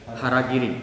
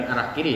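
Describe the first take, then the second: First: "harakiri" as one word, ha-ra-ki-ri, starting with a clear h; correct reading. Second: "arah kiri" said as two words, a-rah ki-ri, the way people misread it; wrong reading. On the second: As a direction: say "arah kiri" like "toward the left". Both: Shown as a demonstration. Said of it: "Bukan arah kiri ya".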